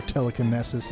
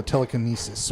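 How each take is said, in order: First: "telekinesis" with a short "ness". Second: "telekinesis" with a long "nee". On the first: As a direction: say "telekinesis" as tele-kih-NESS-is. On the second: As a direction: say "telekinesis" as tele-kih-NEE-sis. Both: Shown as a demonstration. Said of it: "however you pronounce it".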